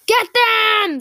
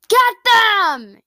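First: Loud, high, angry attack order; enraged yell. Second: Loud, high attack order; yell. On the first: Captain orders another attack, enraged yell. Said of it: "this time with rage in his tone". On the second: Captain sends his legion after the enemy, loud yell. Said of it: "yelled Smog". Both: A narrator's reading.

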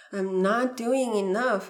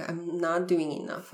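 First: Slower, louder, stressing "doing"; anxious inner voice; emphatic self-reproach. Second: Said in the usual way. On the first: Shown as a demonstration. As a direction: lean hard on "doing". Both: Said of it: "why is everything happening so slowly".

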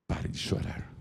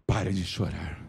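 First: Breathy, voiceless hush; whisper. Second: Said in the usual way. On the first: Acted. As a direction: lean in and whisper it close. Soft repeat of Jesus' words. (sussurro suave)

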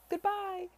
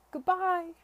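First: High call fading into distance; second calling goodbye. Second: Loud, high farewell call; called out goodbye. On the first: Charlotte calling goodbye again as she leaves, high call. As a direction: call once more as the carriage pulls away. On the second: Charlotte calling goodbye from the moving carriage, loud. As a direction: call it after the departing carriage. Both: Acted. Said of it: "she cried as it moved off".

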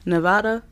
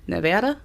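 First: Nevada with an open "ah", questioning; Nevada with broad A. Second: Nevada with a flat "a" as in "cat", questioning; Nevada with short A. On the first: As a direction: say "Nevada" like nuh-VAH-duh, rising at the end. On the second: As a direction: say "Nevada" like nuh-VAD-uh, rising at the end. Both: Shown as a demonstration. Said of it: "How do you say it?".

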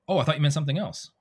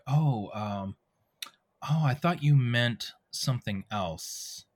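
First: Quick, higher-pitched line read; rushed. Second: Slow, thoughtful realisation; introspective. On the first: Actor squeezing a game line into two seconds, rushed. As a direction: rattle it off to fit a tight time slot. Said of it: "Oh, you have two seconds". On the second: Actor reading a game line with time to spare, introspective. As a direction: say it slowly, pausing as the thought lands. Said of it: "I might be more introspective". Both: Shown as a demonstration.

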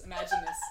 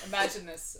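First: Repeated way up high; high squeaky repeat. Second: Said in the usual way. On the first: Shown as a demonstration. Host repeating the phrase in a squeak. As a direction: squeak it the second time.

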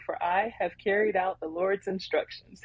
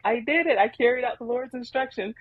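First: Said in the usual way. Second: Higher, pleased boast of a job done; proud and happy. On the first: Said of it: "He's just proud". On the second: Retold or imitated. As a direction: crow "I carried out the Lord's instructions" like a proud kid. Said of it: "He's just proud, just happy".

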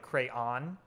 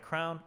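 First: "crayon" drawn out as CRAY-on; "crayon" with a clear "on" ending; two-syllable crayon. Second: "crown" run together, sounding like a king's crown; rhymes with crown. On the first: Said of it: "With two syllables, sounds like". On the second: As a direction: say "crown" with an "ow" vowel. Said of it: "With two syllables, where the second syllable". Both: Shown as a demonstration.

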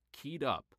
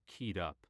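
First: Lifted pitch, punch on up; keyed up and eager. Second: Keyed up, subdued. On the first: Reading positive feelings aloud, eager and lifted. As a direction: say it like you can't wait. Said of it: "same words, positive list". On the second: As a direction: say it tense and down. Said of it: "same words, negative list". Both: Shown as a demonstration.

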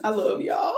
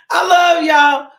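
First: Said in the usual way. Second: Loud, slow, half laughing half crying; loud emotional laugh-sob; laughing through tears. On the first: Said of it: "repeated farewell, second one cried". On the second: Real, not acted. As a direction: overcome with emotion, laugh-cry it out. Repeated farewell, overcome.

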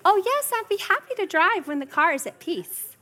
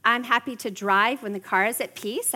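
First: Bright, higher sing-song reply; mock-sweet, calmly unbothered; sweetly cheerful. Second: Said in the usual way. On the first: Mom sweetly answering kids who beg her to drive. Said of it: "And then they, "Mom, go!". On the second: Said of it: "I love to help people when".

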